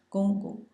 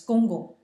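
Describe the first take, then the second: First: "gong gong" both syllables held level and high, first tone, a little louder. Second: Said in the usual way. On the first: Shown as a demonstration. Teacher to class, showing the tone of gong gong, lifted and level. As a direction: sing "gong gong" on one high flat pitch. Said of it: "in the first tone". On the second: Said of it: "usually it's pronounced twice".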